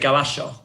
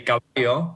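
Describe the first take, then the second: First: The double L is sounded like 'sh'. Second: The double L is sounded like a 'y'. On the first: This is how it is said in Argentina. "we pronounce it as sh ... we say caballo" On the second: This is how most Spanish-speaking countries say it. "which most other countries would say caballo"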